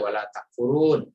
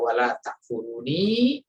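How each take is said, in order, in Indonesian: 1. Kata terakhir berakhir dengan bunyi 'n' mati. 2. Kata terakhir berakhir dengan vokal 'i'. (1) "dibaca sukun, ya, dibaca uh, mati" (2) "karena memang aslinya ada ya-nya di situ"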